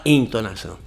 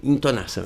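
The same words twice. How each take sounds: First: "entonação" with a clear EN at the start; variant pronunciation. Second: "entonação" said as "intonação"; "entonação" with its first vowel raised to i; preferred pronunciation. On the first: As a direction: say "entonação" opening on an e sound, not i. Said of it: "Tem gente que fala entonação". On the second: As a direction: start "entonação" on an i sound, like "in-". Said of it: "eu prefiro". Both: Shown as a demonstration.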